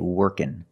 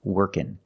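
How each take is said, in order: The two takes are said the same way.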